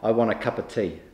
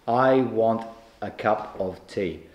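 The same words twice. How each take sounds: First: It is said fast, with words run together. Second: It is said slowly, every word clear.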